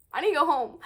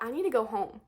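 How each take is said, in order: First: Louder, pressing need to get home; insistent. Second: Said in the usual way. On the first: Real, not acted. Stuck behind the moms, loudly insisting she must get home. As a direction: push it, fed up. Frustrated at traffic.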